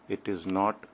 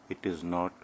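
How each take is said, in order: Both takes have the same delivery.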